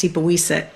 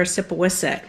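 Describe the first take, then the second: First: "Sipawiset" pronounced the Wampanoag way, with long ee vowels; proper Wampanoag pronunciation. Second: "Sipawisset" said the English road-sign way; anglicised pronunciation. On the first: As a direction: say "Sipawiset" as see-pa-WEE-set. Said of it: "which would be properly pronounced". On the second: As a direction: say "Sipawisset" with short English i vowels. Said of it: "which would be properly pronounced Sipawiset". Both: Shown as a demonstration.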